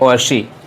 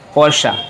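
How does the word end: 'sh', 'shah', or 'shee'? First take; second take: shee; shah. First: The word ends on an 'ee' vowel. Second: The word ends on an 'ah' vowel. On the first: The speaker calls it wrong. "कुछ लोग पढ़ते हैं पोर्शी" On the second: The speaker calls it right. "सही प्रोनाउंसिएशन है पोर्शा"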